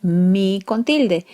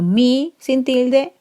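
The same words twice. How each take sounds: First: Said in the usual way. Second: "mi" lifted higher, slow; stress on mi. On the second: Shown as a demonstration. Teacher contrasting mi without and with accent. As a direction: set "mi" apart with a rise, slowly. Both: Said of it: "Por ejemplo".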